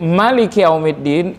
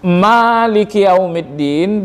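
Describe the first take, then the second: First: The first vowel of Maliki is kept short. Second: The first vowel of Maliki is held long. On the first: It means king, a higher kind of power. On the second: It means owner, a lower kind of power.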